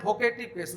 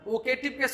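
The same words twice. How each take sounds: First: The word begins with a 'bh' sound. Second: The word begins with a 'v' sound. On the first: The speaker calls it wrong. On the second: The speaker calls it right.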